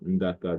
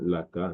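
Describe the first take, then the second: First: The word begins with an ND sound. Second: The word begins with an L sound. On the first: "Le N D peut se prononcer L"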